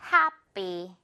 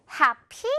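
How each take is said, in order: First: Happy falling away on an unaspirated second syllable; tense unaspirated p. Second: Happy with a puffed, strong py that rises; Happy ending high on a breath-heavy 피; awkward aspirated p. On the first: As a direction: stress Hap, then a tight, airless py. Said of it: "그래서 어떻게 소리 난다?". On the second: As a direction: blow air on the second syllable of Happy. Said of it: "피 발음 그렇게 나면 좀 어색해요". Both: Shown as a demonstration.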